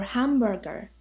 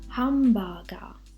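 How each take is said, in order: First: It is said with English pronunciation. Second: It is said with Japanese pronunciation.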